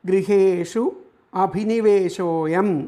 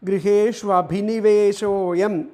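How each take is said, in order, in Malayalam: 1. വാക്കുകൾ ചേർക്കാതെ വേറെ വേറെയായി പറയുന്നു. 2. വാക്കുകൾ ഒന്നിച്ചു ചേർന്ന് ഒരു കൂടിച്ചേർന്ന രൂപമാകുന്നു. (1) "അവിടെ ആ പദങ്ങൾ വരുന്നത്" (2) "ഒന്നിച്ച് ചേർത്തിട്ട് അപ്പം ചൊല്ലുമ്പോൾ ഉള്ള പ്രൊനൗൺസിയേഷൻ"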